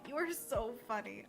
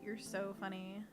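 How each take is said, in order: First: It is said excitedly, with lots of enthusiasm. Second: It is said flatly, without enthusiasm. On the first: The compliment is sincere and enthusiastic. "four exclamation points... definitely read like" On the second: The compliment is half-hearted or sarcastic. "with no exclamation point, so I'm imagining that said, like"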